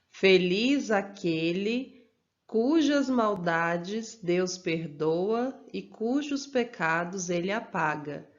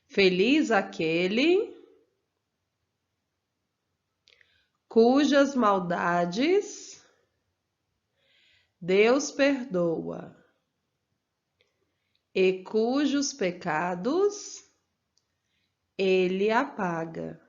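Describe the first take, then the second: First: The sentence is spoken at a normal pace. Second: The sentence is spoken slowly with pauses.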